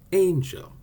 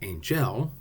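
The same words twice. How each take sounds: First: The stress is on the first syllable. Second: The stress is on the second syllable. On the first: The speaker calls it right. "we say angel" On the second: The speaker calls it wrong. "We don't say angel"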